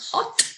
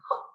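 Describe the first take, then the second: First: The final t is said fully and clearly. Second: The final t is changed by the next sound. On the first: "that's not hot that I'm hearing" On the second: "I'm hearing hot"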